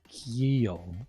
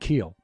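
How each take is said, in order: First: It is said in an Irish accent, y-glide after k. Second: It is said in an American accent. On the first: "like it has a Y uh, after the C" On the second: "we say Irish words with an American accent"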